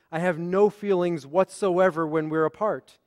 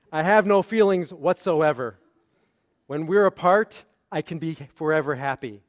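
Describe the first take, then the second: First: NO stressed, "whatsoever when we're apart" run together; no stop after "whatsoever", fall on "apart"; one unbroken sentence. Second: Full stop after "whatsoever", long pause, "When we're apart" lifted as a new start; split, dismissive phrasing. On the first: Rabbi reading Jane missing John, unbroken phrasing. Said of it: "the periods went and the emphasis went". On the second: Rabbi reading John's misreading, dismissive phrasing. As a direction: close on "whatsoever", then link "When we're apart" to "forever happy". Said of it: "but what did John read?".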